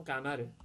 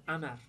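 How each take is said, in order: First: Said in the usual way. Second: امر as amar, opening on a glottal stop; qaf as hamza. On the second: Retold or imitated. Teacher recalls an Asyut speaker's word, qaf as hamza. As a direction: imitate Egyptian dialect امر, dropping the q of qamar. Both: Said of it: "این قاف تبدیل به همزه شده".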